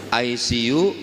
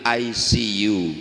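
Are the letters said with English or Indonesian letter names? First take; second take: English; English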